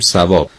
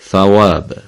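First: The word begins with a plain s sound. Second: The word begins with a tongue-tip th sound. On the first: This is how Persian speakers say it. "ما میگیم ثواب" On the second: This is how Arabic speakers say it. "اونا میگن ثواب، ف به قول ما نوک زبونه میگن حرف ثا"

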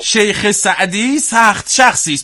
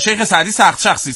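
First: The phrase is said at a slower pace. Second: The phrase is said at a fast pace.

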